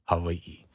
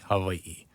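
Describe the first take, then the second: First: The middle consonant is a softened v. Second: The middle consonant is a softened v.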